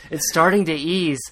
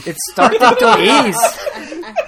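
First: Said in the usual way. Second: High, slow, laughing voice; wrong character's line. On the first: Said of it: "Fitz says". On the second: Retold or imitated. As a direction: read it in a put-on voice, giggling. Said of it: "No, no, Fitz says".

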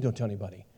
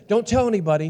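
First: Low, much softer muttered repeat; puzzled echo. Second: Put-on higher, eager voice of grown kids; excited secret-sharing. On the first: Retold or imitated. Dad questioning his kids' demand for secrecy, puzzled echo. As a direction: echo the instruction back under your breath, baffled. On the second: Kids telling dad about the baby, excited warning. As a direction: imitate an excited warning to keep news secret.

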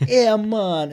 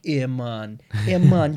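First: Put-on high, loud Jamaican accent. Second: Hammed-up Jamaican accent; a quick mock Jamaican accent.

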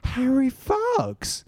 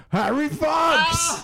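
First: Very high, stretched-out falsetto call; drawn-out, high-pitched mock female call; woman's voice. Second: Put-on high, drawn-out drunken holler; imitating a drunk guy's long, high shout; drunk heckler. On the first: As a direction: imitate a woman calling out of nowhere. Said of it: "I hear this woman's voice go". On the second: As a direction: yell it like a drunk party pest. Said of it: "this fucking drunk dude who just kept coming up".

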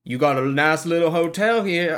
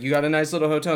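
First: Mock Southern hotel guest; attempted Southern accent. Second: Said in the usual way. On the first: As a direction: have a go at a New Orleans accent. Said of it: "I can't do that". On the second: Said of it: "but, you know, he's like".

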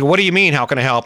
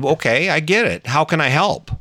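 First: A touch of confused disbelief, rising on mean; puzzled, throwing his words back at him. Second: Retold husband offering help, gently and evenly; calm kind offer. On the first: Retold or imitated. Wife baffled by husband's kind answer, mildly confused. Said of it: "she was confused". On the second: Husband calmly offers angry wife help. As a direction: soothe her instead of fighting back. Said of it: "I showered her with kindness".

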